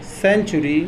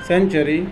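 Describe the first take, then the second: First: "सेंचुरी" with a clear "u" in the middle, sen-chu-ree; model pronunciation. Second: "सेंचुरी" with a short schwa in the middle, sen-chuh-ree; reduced-vowel variant. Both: Shown as a demonstration. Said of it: "C A N T यू आर".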